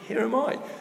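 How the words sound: It is said in a high squeaky voice.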